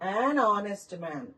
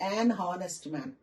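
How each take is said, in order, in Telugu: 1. 'honest'లో మొదటి h పలకబడదు. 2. 'honest'లో మొదటి h ఉచ్చరించబడుతుంది. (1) "హెచ్ silent" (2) "not an హానెస్ట్ man. That is wrong"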